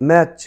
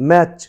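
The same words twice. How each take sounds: The two takes are said the same way.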